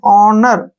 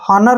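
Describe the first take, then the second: First: The word starts directly with a vowel sound. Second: The word starts with an audible h sound. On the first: The speaker calls it right. "एच को हमने नहीं पढ़ना है" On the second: The speaker calls it wrong. "हॉनर नहीं पढ़ना है"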